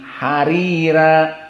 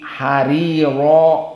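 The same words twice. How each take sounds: First: The r is pronounced light and thin. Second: The r is pronounced heavy and full.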